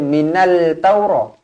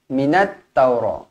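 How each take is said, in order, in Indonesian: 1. Terdengar bunyi l yang terpisah sebelum t. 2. Bunyi n langsung menyambung ke t ganda. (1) "Jangan baca minal taura" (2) "ada tanda sabdu terus masuk"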